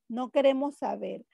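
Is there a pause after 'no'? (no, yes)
no. The words run together without a pause. We do not want to know.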